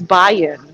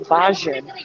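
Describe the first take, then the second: First: The middle consonant is a Y sound. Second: The middle consonant is a J sound. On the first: The speaker calls it right. "It's Bayan" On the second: The speaker calls it wrong. "They call you Bajan ... That's wrong"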